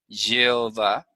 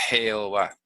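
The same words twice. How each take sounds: First: The word starts with a soft y sound. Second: The word starts with a harsh throat sound. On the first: This is the original Hebrew sound. The speaker calls it right. "la J no era J, era una Y" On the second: This is how it is said today. The speaker calls it wrong. "hoy se dice Jehová"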